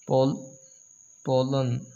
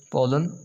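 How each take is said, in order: First: "Pol-, pollen" broken up, first syllable alone. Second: Said in the usual way. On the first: Shown as a demonstration. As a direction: sound out "Pol-", pause, then finish "pollen". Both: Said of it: "this word has two syllables".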